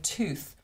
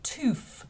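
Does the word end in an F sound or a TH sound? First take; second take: TH sound; F sound. First: The word ends in a TH sound. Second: The word ends in an F sound. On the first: This is the traditional form. "instead of tooth" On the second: This is the new form used by young people. "They were saying tooth"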